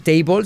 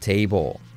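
First: The final L sounds like a strong Spanish L. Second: The final L sounds soft and controlled, English-like. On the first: The speaker calls it wrong. "Mesa no se dice table" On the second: The speaker calls it right. "sino table"

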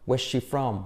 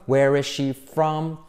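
First: The word is is contracted onto where. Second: The word is is said fully and separately.

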